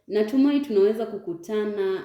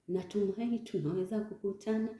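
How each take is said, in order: First: It is said in a calm, natural way. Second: It is said in a tense, fearful way. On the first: The speaker calls it right. "No, just say" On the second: The speaker calls it wrong. "don't say it as if you are afraid or maybe you are tense"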